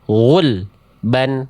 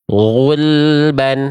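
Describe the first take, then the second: First: The word is cut with a break after the l. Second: The word flows smoothly with no break. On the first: The speaker calls it wrong. "nggak boleh dibaca terputus seperti itu" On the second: The speaker calls it right. "harus dialirkan bunyi lamnya sedikit"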